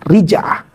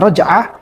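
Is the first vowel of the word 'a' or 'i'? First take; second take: i; a. First: The first syllable has the vowel 'i'. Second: The first syllable has the vowel 'a'. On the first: "dengan mengkasrohkan huruf ro" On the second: "bisa dibaca dengan menfathahkan huruf ro"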